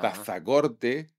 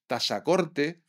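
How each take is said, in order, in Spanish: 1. La consonante del medio es un sonido z. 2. La consonante del medio es un sonido s. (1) "tenéis que decir" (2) "decís tasacorte"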